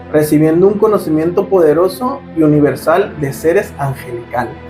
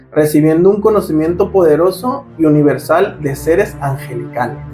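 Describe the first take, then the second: Both takes have the same delivery.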